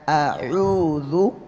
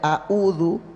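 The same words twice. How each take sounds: First: The middle consonant is a deep pharyngeal sound. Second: The middle consonant is a plain glottal stop. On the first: The speaker calls it right. "bedakan antara hamzah dan ain" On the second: The speaker calls it wrong. "jadi tidak a'udzu. Ini sama-sama hamzah"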